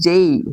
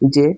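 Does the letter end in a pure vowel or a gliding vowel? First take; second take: gliding vowel; pure vowel. First: The letter ends in a gliding vowel. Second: The letter ends in a pure vowel. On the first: This is how native speakers say it. The speaker calls it right. "এটা কি হবে? জেই" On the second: This is how local learners say it. The speaker calls it wrong. "সবাই বলি না জে ... এটা কিন্তু জে হবে না"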